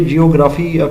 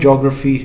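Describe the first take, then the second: First: The word begins with two syllables, 'jee-oh'. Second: The word begins with one syllable, 'jo'. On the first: The speaker calls it wrong. "इसे अक्सर बच्चे जियोग्राफ़ी pronounce करते हैं" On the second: The speaker calls it right. "इसका pronunciation जो exact है वो है जोग्राफ़ी"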